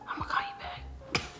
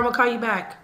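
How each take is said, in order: First: It is said in a drowsy, sleepy voice. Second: It is said in an ordinary, awake voice. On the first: The speaker calls it right. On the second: The speaker calls it wrong.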